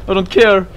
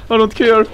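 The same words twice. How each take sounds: The two takes are said the same way.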